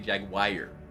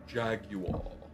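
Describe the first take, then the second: First: It is said in a Midwestern accent, ending like wire. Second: It is said in a British accent. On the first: "in the Midwest, where I'm from, they say Jaguar. A wire of Jag" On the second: "the Brits with a Jaguar"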